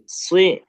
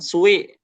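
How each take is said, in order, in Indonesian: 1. Bunyi w yang samar ada di tengah. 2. Bunyi w yang jelas dan penuh terdengar. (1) "di tengah-tengahnya ada w-nya" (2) "jangan benar-benar jelas ada w-nya, jangan sui"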